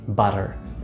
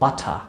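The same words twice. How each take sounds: First: It is said with an American accent. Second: It is said with a British accent.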